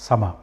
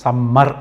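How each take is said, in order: First: The middle m sound is single and short. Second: The middle m sound is doubled and long. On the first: The speaker calls it right. "రెండు ఎంలు ఉన్నా కూడా ఒకటే పలకాలి" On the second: The speaker calls it wrong. "దీన్ని సమ్మర్ అనకూడదు"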